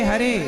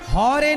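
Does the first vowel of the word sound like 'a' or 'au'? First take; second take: a; au. First: The first vowel sounds like a plain 'a'. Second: The first vowel sounds like 'au'. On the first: The speaker calls it right. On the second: The speaker calls it wrong.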